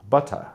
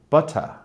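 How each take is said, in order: First: It is said in a British accent. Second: It is said in a British accent.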